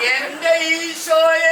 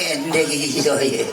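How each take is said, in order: First: The call is loud and forceful. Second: The call is weak and feeble. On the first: The caller cries out with fervour. The speaker calls it right. "ഇങ്ങനെ വിളിക്കണം" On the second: The caller lacks fervour. The speaker calls it wrong. "തൊണ്ണൂറ് വയസ്സുള്ള കളി വിളിക്കുന്ന പോലെയാണ്"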